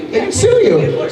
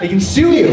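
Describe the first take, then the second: First: Shrill mock outrage. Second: Said in the usual way. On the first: Squeaky repeat.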